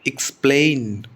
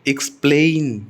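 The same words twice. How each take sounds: The two takes are said the same way.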